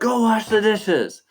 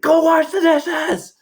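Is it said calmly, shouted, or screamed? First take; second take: shouted; screamed. First: It is shouted loudly with rising emotion. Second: It is screamed at the loudest volume.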